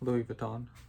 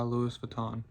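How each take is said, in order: First: Louis is said without the extra final sound. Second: Louis is said with an extra final sound. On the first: The speaker calls it right. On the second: The speaker calls it wrong.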